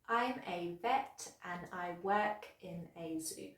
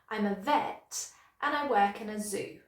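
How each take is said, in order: First: Every word gets the same even stress. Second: Vet, work and zoo are stressed. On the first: The speaker calls it wrong. "I was pronouncing each word in that sentence with exactly the same strength or stress" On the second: The speaker calls it right. "here's how I would pronounce it naturally"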